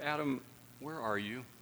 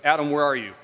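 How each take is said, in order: First: It sounds warm and longing, seeking fellowship. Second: It sounds harsh, like a judgment.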